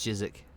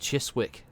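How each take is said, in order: First: The name is said in a short, casual form. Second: The name is sounded out as it is spelled. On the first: This is how people actually say it. The speaker calls it right. "but it's just Chiswick" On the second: This is how the written form looks. The speaker calls it wrong. "it's written Chiswick"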